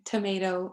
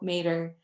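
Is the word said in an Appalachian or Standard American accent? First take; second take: Standard American; Appalachian. First: All three syllables are pronounced. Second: The first syllable is dropped; ends in -er.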